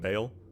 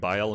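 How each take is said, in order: First: The vowel sounds like 'ay'. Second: The vowel sounds like 'eye'. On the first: This is the easier anglicized pronunciation. "I'm just going to start pronouncing it as Bale because that is easier for me" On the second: This is the attempt at the proper pronunciation. "dispense with perfect pronunciation"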